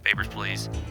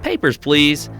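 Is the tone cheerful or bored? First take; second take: bored; cheerful. First: It sounds bored, like a DMV clerk. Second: It sounds cheerful, like a joyful Disney worker.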